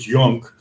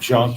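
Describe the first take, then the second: First: The name is said with German pronunciation. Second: The name is said with English pronunciation. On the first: The speaker calls it right. "it's Junk, but uh, in German" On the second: The speaker calls it wrong. "It's not junk"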